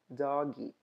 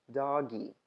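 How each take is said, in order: Both takes have the same delivery.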